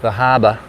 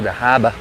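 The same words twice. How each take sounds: First: "the harbor" in Boston accent, r dropped, hahbuh. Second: "the harbor" repeated Boston style, r dropped; Boston accent again. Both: Shown as a demonstration. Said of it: "That's my best Boston accent right there".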